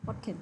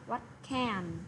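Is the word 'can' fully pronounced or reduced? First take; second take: reduced; full. First: The word 'can' is weak and reduced. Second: The word 'can' has a full, clear vowel. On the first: "bây giờ chúng ta có thể đọc là what can" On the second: "bình thường mình sẽ đọc là what can"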